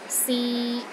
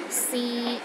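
First: The pitch is mid and level. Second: The same.

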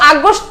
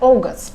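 First: It is pronounced the usual Bengali way. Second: It is pronounced the English way. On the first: The speaker calls it wrong. "আগস্ট তো আমরা বাংলায় বলি" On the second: The speaker calls it right. "Sir এটা হবে হচ্ছে অগস্ট"

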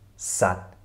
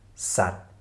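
First: The word ends on a final t sound. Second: The same.

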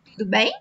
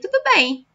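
First: It is said as a question, rising. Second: It is said as a statement, falling.

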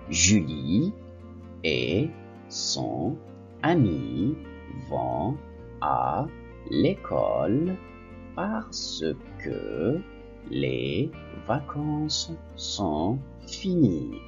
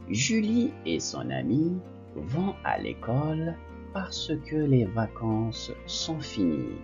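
First: The sentence is read at a slow pace. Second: The sentence is read at a quick pace.

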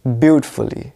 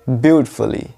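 Both takes have the same delivery.

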